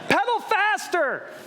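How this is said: It is yelled in an urgent, alarmed way. "you start to yell things at them"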